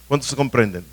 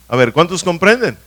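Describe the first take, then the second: First: Said in the usual way. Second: Louder call to the congregation. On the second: Real, not acted. Preacher asking the congregation again, louder. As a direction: repeat "¿cuántos comprenden?" louder, demanding an answer.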